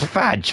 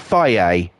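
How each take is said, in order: First: The word ends in a consonant sound. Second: The word ends in a vowel sound. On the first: This is how the spelling reads. The speaker calls it right. "It says fudge" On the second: This is how the brand's adverts say it. The speaker calls it wrong. "That's how they're pronouncing it"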